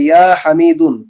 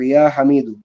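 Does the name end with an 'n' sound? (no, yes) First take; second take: yes; no. First: The name ends with a final -un sound. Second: The name ends with a bare -u sound. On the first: The speaker calls it wrong. "হওয়ার কথা ছিল যেহেতু পুরুষদের নামে তানভিন" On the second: The speaker calls it right. "তানভিনটা পড়ে যাবে, এক পেশ থাকবে"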